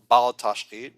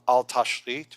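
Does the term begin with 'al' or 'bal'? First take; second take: bal; al. First: The term begins with the sound 'bal'. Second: The term begins with the sound 'al'. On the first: The speaker calls it wrong. "Most people pronounce it bal tashrit, which is wrong" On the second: The speaker calls it right. "It's called al tashrit"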